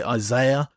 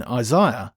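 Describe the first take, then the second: First: "Isaiah" said the way lots of people say it, eye-ZAY-uh; other common pronunciation. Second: Said in the usual way. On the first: Shown as a demonstration. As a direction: say "Isaiah" with a "zay" middle syllable. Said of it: "I know lots of people say". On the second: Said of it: "I know lots of people say Isaiah".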